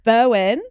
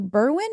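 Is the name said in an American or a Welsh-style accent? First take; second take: Welsh; American. First: The name is said in a Welsh-style accent. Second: The name is said in an American accent. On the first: It copies the local pronunciation. "They said Bo- Bowen, and I'm going to say it like that" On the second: It uses the speaker's own accent. "Now I'm saying it like an American"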